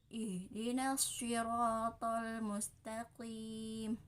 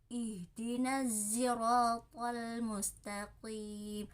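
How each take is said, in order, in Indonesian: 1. Siratal diawali dengan bunyi S biasa. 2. Siratal diawali dengan bunyi yang mirip Z.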